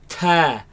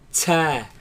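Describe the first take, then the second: First: The t bursts out with a strong puff. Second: The t has a sharp hissing release. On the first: "they spit it out like" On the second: "place the tongue behind the bottom teeth, right, and produce a sharp sound such as ts"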